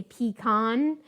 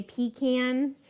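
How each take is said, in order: First: "pecan" said PEE-KAHN, with an open ah ending; pee-con pronunciation. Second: "pecan" said PEE-CAN, rhyming with tin can; pee-can pronunciation. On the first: Cook on what some Americans say, "pecan" as pee-kahn. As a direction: end "pecan" on KAHN after a long pee. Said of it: "with the con". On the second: Cook on the less common way, "pecan" as pee-can. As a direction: end "pecan" on a CAN with a short a. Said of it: "not the can". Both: Shown as a demonstration.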